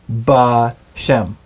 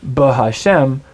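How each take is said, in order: First: The h syllable is dropped and contracted. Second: The h syllable is pronounced in full. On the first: The speaker calls it right. "you would say Ba Shem" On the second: The speaker calls it wrong. "You wouldn't say Ba Hashem"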